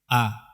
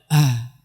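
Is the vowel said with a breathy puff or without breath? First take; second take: without breath; breathy. First: It is said firmly with no breath released. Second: It is said with a puff of breath. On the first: The speaker calls it right. "mengucapkan huruf dengan tidak mengeluarkan nafas" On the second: The speaker calls it wrong. "tidak a"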